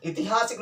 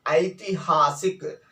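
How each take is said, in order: First: ऐतिहासिक said as "itihasik" with a short i and no ai, quick; wrong pronunciation. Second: ऐतिहासिक with a clear "ai" at the start, slow and careful; correct pronunciation. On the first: (ऐतिहासिक को "इतिहासिक" की तरह गलत उच्चारण, छोटी इ के साथ) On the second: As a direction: say ऐतिहासिक slowly, opening on a full ai. (ऐतिहासिक का सही उच्चारण, शुरू में साफ़ "ऐ", धीरे-धीरे) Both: Shown as a demonstration. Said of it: "ऐतिहासिक नहीं बोलते हैं".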